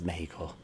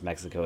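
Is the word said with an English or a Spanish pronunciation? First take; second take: Spanish; English. First: The word has a Spanish, Mexican pronunciation. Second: The word has an English pronunciation.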